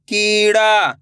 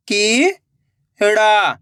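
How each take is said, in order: First: Said in the usual way. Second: Very slow, syllables pulled apart; slow syllable reading. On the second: Shown as a demonstration. Teacher showing pupils how to sound out syllables slowly. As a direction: sound out each piece slowly. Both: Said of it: "तो बताइए मिलके क्या बनेगा?".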